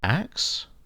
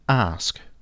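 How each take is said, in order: First: The word ends with a k then s sound. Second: The word ends with an s then k sound. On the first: The speaker calls it wrong. "mispronouncing the word ask" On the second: The speaker calls it right. "That's ask"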